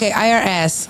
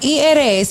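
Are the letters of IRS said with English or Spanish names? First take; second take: English; Spanish. First: The letters are spoken with English letter names. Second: The letters are spoken with Spanish letter names. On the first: The speaker calls it right. "IRS, sorry" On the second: The speaker calls it wrong. "no lo pronuncié como es"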